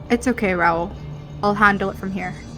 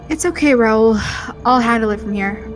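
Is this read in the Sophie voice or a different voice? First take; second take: different voice; Sophie voice. First: It is read in a different, non-Sophie voice. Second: It is read in the Sophie character voice.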